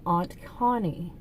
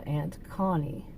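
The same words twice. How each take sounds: First: "Aunt" said like "ahnt"; broad-a aunt. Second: "Aunt" said like "ant"; short-a aunt. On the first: Vlogger naming the one relative, "Aunt" sounding like "ahnt". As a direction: say "Aunt" with an open ah vowel. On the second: Vlogger renaming the relative, "Aunt" sounding like "ant". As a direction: say "Aunt" with the a of "cat". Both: Shown as a demonstration. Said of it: "however you pronounce aunt or aunt".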